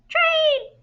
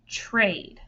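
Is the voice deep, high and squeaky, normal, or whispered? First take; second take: high and squeaky; normal. First: It is said in a tiny, high, squeaky voice. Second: It is said in an ordinary speaking voice.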